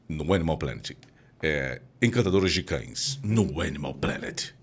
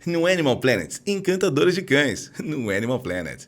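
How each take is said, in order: First: Lower, slow documentary narrator voice; deep TV announcer. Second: Higher, louder, playful dog-owner voice; cutesy pet ad voice. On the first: Host mocking a nature channel promo, deep and slow. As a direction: intone it like a nature channel trailer. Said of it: "você não pode ouvir". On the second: Host redoing the nature ad in a pet-owner voice, high and loud. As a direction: sell it like talking to your puppy. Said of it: "fazer o comercial lá do Animal Planet". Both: Shown as a demonstration.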